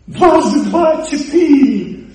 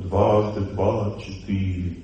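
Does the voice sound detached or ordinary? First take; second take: ordinary; detached. First: It is said in an ordinary, everyday voice. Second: It is said in a detached, unemotional voice. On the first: The speaker calls it wrong. "Он не должен так говорить" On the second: The speaker calls it right. "Он должен голосом памяти говорить"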